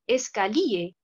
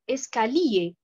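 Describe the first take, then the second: No difference in how they are said.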